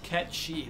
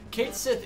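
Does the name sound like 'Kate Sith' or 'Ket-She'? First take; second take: Ket-She; Kate Sith. First: The name ends in a 'sh' sound. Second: The name ends in a 'th' sound. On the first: The speaker calls it right. "is pronounced Ket-She. That is correct" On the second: The speaker calls it wrong. "I've pronounced it Kate Sith forever"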